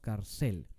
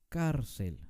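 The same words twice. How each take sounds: First: The stress is on the last syllable. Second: The stress is on the first syllable. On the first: The speaker calls it wrong. "No decimos cárcel" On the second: The speaker calls it right. "Es una palabra grave"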